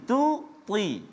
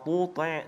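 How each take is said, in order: First: Only the first t sound is heavy. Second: Both t sounds are heavy and thick. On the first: The speaker calls it right. "yang perlu ditebalkan adalah huruf ta sahaja" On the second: The speaker calls it wrong. "dua-dua dibaca tebal"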